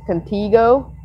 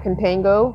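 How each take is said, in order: First: The middle syllable sounds like 'tee'. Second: The middle syllable sounds like 'tan'. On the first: The speaker calls it right. "It's Contigo" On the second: The speaker calls it wrong. "not Contango, because there's no N"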